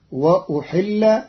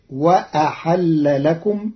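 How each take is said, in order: First: وأحل said as wa-ahalla, raised and slow; وأحل as ahalla, not uhilla; fatha on hamza and ha. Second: وأحل لكم read as wa-ahalla lakum, slowly; slow وأحل لكم ending in a rise. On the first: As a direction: open both vowels in وأحل. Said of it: "بفتح الهمزة والحاء". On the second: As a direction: say وأحل with fatha on hamza and ha. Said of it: "فتصير". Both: Shown as a demonstration.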